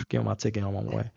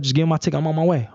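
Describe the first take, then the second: First: Sighing, weary. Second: Said in the usual way. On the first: Retold or imitated. Weary repeat after a sigh.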